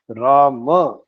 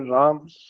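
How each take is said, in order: First: The word ends on an open a vowel. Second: The word ends on the consonant m. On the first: The speaker calls it right. "correct pronunciation" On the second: The speaker calls it wrong. "not pronounced correctly. Ma remains inside"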